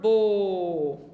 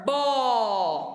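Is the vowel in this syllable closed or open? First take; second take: closed; open. First: The o vowel is closed and lowered. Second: The o vowel is open and raised. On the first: "vermelho é quando for bo... o outro é descendo" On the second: "verde é quando for bó ou ó... Um é subindo"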